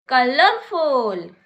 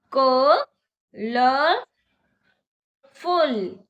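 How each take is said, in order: First: Said in the usual way. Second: colourful stretched very slowly, syllable by syllable; slow demo. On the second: Shown as a demonstration. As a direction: drag colourful out for clapping. (Colourful को धीरे-धीरे खींचकर) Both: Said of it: "मेरे साथ बोलिए".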